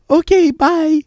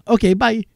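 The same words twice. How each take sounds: First: Very high singsong farewell, hammed up; exaggerated mock sign-off. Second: High-pitched quick goodbye; breezy mock sign-off. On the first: Prankster gleefully hanging up on a telemarketer, exaggerated mock sign-off. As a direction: push the goodbye way up in pitch. Repeats the hang-up, more exaggerated. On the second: Prankster hanging up on a telemarketer, breezy mock sign-off. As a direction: toss off a raised-pitch farewell, in imitation.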